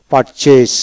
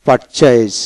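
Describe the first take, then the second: No difference in how they are said.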